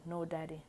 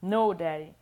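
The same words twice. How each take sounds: First: Said in the usual way. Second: Much louder protesting cry. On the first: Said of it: "He spanked me". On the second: Acted. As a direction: cry it out after the harder spank. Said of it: "He spanked me harder".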